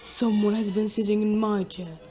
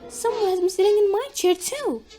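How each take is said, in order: First: It is said in a great big voice. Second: It is said in a medium-sized voice.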